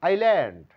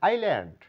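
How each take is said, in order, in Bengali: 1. s এর শব্দ নীরব। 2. s এর শব্দ নীরব।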